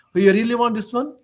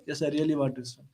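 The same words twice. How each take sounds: First: Higher questioning lift on "So you really want this one?"; probing question. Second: Lower, much softer answering voice; reply softly and low, dropping away at the end; quiet assent. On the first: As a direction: ask "really want this one?" as a check, pitch raised. Saint questions the merchant in retold dialogue. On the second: Merchant's answer in retold dialogue. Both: Retold or imitated.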